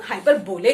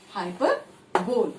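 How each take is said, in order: First: हाइपरबोले with an added "ay" at the end; alternative pronunciation. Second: हाइपरबोल said slowly, ending on "bol"; usual pronunciation. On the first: Teacher showing how some people say it, हाइपरबोले with final "lay". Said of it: "कुछ लोग हाइपरबोले कहते हैं". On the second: Teacher naming the term for the class, हाइपरबोल ending in "bol". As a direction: say हाइपरबोल in separate parts, no final "ay". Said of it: "इसे कुछ लोग हाइपरबोले कहते हैं". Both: Shown as a demonstration.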